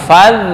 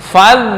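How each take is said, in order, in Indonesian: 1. Konsonan setelah 'fa' terdengar seperti 'dh'. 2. Konsonan setelah 'fa' terdengar seperti 'dh'.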